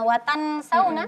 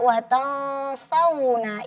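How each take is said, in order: First: The n is pronounced clearly, separate from the s. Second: The n is a hidden nasal with heavy, raised tongue. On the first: "masuknya ke ... ke ilhar tadi" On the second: "ikut pangkal lidah terangkat"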